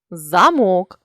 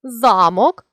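First: Замок with final МОК stressed; stress on last syllable. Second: Замок with ЗА stressed; stress on first syllable. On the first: Teacher means a door lock, замок stressed on МОК. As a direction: land on МОК ending замок. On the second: Teacher means a feudal lord's castle, Замок stressed on ЗА. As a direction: punch the opening ЗА of Замок. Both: Shown as a demonstration. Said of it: "залежно від наголосу".

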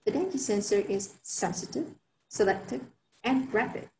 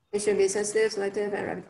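First: The dengue sensor is sensitive, selective, and rapid with each of sensitive, selective and rapid given its own lift and a short pause; emphasized list. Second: It should be sensitive, selective, and rapid run together with no lift on sensitive, selective or rapid; unstressed list. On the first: Presenter showing listeners how to stress sensitive, selective and rapid. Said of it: "So I would go". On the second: Presenter showing the wrong way, sensitive, selective and rapid all unstressed. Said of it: "You can't go". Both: Shown as a demonstration.

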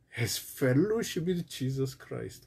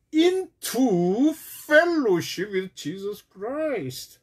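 First: "fellowship" lightly stressed, softer, falling. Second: Slow, emphatic, with "into" leaned on and held; stress on into. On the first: Pastor gently stressing "fellowship" as he explains, falling. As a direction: put the weight on "fellowship" and let it fall. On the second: Pastor stressing "into" to his congregation, slowly. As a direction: stretch out "into fellowship with Jesus Christ" with weight on "into". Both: Shown as a demonstration. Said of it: "This is really something important to remember".

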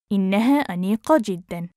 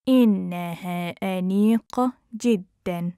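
First: Quick, flowing and joined up; fast model sentence; natural speed. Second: Measured, careful teaching pace. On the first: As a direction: run the phrase together fluently. Teacher repeats phrase at speed. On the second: Teacher repeats phrase slowly joined. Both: Shown as a demonstration.

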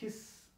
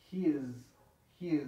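First: HIS ending in a voiceless hissing S. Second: HIS ending in a buzzing Z. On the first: Teacher showing how Spanish speakers say it, HIS with S. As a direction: end "his" on a long S with no vibration. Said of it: "lo pronunciamos his, con S". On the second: Teacher telling students the real pronunciation, HIS with Z. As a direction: let the end of "his" vibrate as a Z. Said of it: "se pronuncia con Z". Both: Shown as a demonstration.

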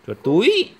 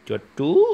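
First: Chuột túi said high and loud, túi rising; correct word, clearly modelled. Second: Put-on chuột túi said babyishly as chú; imitating toddler's mispronunciation. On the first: Shown as a demonstration. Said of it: "Chuột cố, chuột gì?". (nói to, cao "chuột túi" để dạy bé) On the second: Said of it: "Con chuột túi". (nhại bé nói "chuột chú")

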